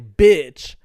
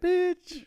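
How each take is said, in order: First: It is said at a lower pitch. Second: It is said at a higher pitch.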